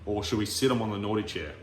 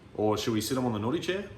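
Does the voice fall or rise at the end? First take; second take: fall; rise. First: The pitch falls at the end. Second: The pitch rises at the end. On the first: "downward inflection"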